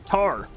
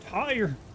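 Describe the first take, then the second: First: The vowel is flattened, as in a Southern accent. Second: The vowel glides fully, as in standard English. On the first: "from where I'm from, it's tar" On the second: "it's tire"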